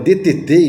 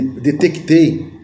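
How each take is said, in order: First: No k sound is heard before the t. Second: A k sound is heard before the t.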